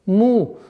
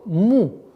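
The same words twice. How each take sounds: Both takes have the same delivery.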